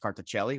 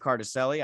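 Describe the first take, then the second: First: The surname gets its original, foreign-style pronunciation. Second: The surname gets an anglicized, American-style pronunciation. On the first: This is how the name is said in its home country. "probably pronounced Carticelli, which is the correct way" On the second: This is how the speaker has always said his own name. "the way I've, I've been saying it my whole life"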